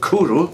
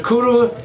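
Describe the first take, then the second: First: Kuru said carefully as KOO-roo, each syllable clear; Welsh pronunciation. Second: Kuru sung out much higher as KOO-roo, first syllable lifted; Welsh pronunciation. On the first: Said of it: "pronounced Kuru". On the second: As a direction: present Kuru brightly to the viewers, KOO-roo, pitched up. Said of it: "Kuru is pronounced Kuru". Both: Shown as a demonstration.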